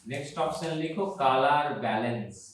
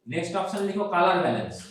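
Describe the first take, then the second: First: Unhurried repeat for note-taking; slow dictation. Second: Said in the usual way. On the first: Shown as a demonstration. Teacher repeats the heading for students writing it down, slow dictation. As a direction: dictate slowly, word by word.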